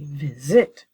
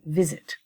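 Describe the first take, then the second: First: The stress is on the second syllable. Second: The stress is on the first syllable. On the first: The speaker calls it wrong. "I don't say visit" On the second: The speaker calls it right. "my stress is on the first syllable"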